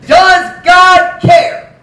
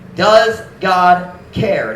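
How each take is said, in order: First: Booming preacher shout. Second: Slow, stretched, without the shout; slow pulled-back question. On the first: Preacher shouting the question to his congregation. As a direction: shout it slow and loud, drawn out. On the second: Preacher repeating the question slowly to the congregation. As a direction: let it hang, slowly. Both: Acted.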